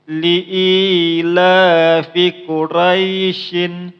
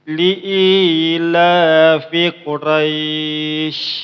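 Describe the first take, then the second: First: The last word ends with an n sound. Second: The last word stops without an n sound. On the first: The reading carries on without stopping here. "dia itu bacanya itu menyambung" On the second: The reading stops at this word. "apabila bacanya itu berhenti, contohnya seperti ini"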